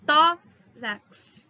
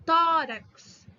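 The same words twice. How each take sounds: First: "Tórax" loud, "Tó" punched; stress on TÓ. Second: "Tórax" louder, "Tó" punched; stress on TÓ. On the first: Teacher drilling stress for class. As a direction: hit the "Tó". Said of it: "Qual que é a mais forte?". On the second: Teacher underlining tonic for students. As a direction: hit the "Tó" in "Tórax". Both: Shown as a demonstration.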